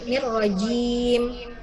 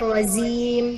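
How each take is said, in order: First: The middle consonant is a j sound. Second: The middle consonant is a z sound. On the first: The speaker calls it right. "pakai jim" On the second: The speaker calls it wrong. "bukan zim. Bukan pakai zai"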